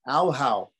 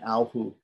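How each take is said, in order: First: The vowel after the h is au. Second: The vowel after the h is u. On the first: The speaker calls it wrong. "some people might wrongly say" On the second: The speaker calls it right. "only the I and the U parts are echoed"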